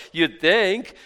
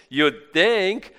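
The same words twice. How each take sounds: The two takes are said the same way.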